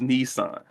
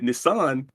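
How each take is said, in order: First: It is said the usual American way. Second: It is said closer to the Japanese way. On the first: The speaker calls it wrong. "All these years, I thought it was Nissan" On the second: The speaker calls it right. "Nissan is the correct pronunciation"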